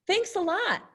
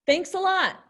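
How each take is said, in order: First: Sarcastic. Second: Higher, louder cheerful thanks; happy. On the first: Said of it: "they're being sarcastic". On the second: Teacher showing a happy thank-you to students. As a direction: thank them warmly and brightly. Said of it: "they're really happy". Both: Shown as a demonstration.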